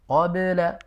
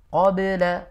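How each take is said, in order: First: The b sound is released with a clear bounce. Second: The b sound is released with a clear bounce.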